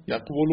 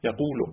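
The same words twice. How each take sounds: First: یقول with a consonant v after q; original form yaqvulu. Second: یقول with a long u and no v; changed form yaqulu. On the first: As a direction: say یقول as yaq-vo-lo. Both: Shown as a demonstration. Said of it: "یقول شد یقول".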